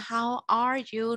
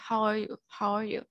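First: Each word is said clearly and separately. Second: The word 'are' is shortened to a quick 'uh'. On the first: "người ta không nói là how are you nữa" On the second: "cái chữ a người ta sẽ đọc lại rất là ngắn, là giống chữ ờ vậy"

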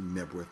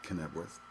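First: The word begins with an N sound. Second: The word begins with a K sound. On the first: The speaker calls it right. "I believe it's actually Knebworth" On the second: The speaker calls it wrong. "not Knebworth"

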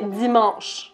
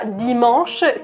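First: The word begins with a buzzing dz sound. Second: The word begins with a plain d sound. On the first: The speaker calls it right. "il y a un Z et un S au milieu. Donc ... c'est dimanche" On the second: The speaker calls it wrong. "c'est pas dimanche"

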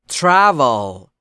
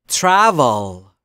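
Both takes have the same delivery.

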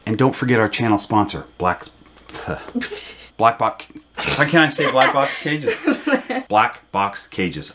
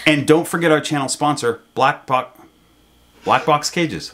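First: The line is delivered in an unusual, exaggerated way. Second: The line is delivered in an ordinary, plain way. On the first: The speaker calls it wrong. "I said it" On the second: The speaker calls it right. "let me see if I can say it like a normal person"

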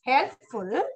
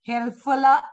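First: The word ends cleanly on the 'l' sound. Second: The word ends with an extra 'a' vowel. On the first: The speaker calls it right. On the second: The speaker calls it wrong.

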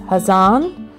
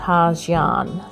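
First: It is said the way locals pronounce it. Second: It is said the way most foreigners pronounce it. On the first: The speaker calls it right. "But it is Ha Giang" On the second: The speaker calls it wrong. "not Ha Giang"

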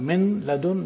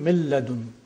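First: The n sound is clearly pronounced before l. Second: The n sound merges completely into the l. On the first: The speaker calls it wrong. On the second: The speaker calls it right.

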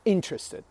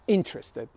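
First: The stress is on the first syllable. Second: The stress is on the first syllable.

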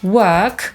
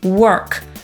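First: The vowel has no r sound. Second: The vowel has an r sound.

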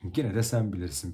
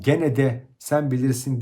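First: The words are run together naturally. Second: Each word is pronounced fully as spelled. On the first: The speaker calls it right. "daha doğal bir dille" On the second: The speaker calls it wrong. "yazıldığı gibi gene de sen bilirsin değil"

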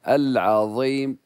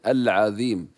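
First: The emphatic consonant is said heavy. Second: The emphatic consonant is said light. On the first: The speaker calls it right. "نبقي فيه الإطباق" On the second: The speaker calls it wrong. "لا نقول العظيم"

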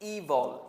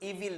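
First: The second syllable has a reduced vowel. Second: The second syllable has a clear 'i' vowel. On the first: The speaker calls it right. "শব্দটা হচ্ছে ইভল" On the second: The speaker calls it wrong. "আসলে শব্দটা কিন্তু ইভিল না"

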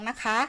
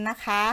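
Both takes have the same delivery.

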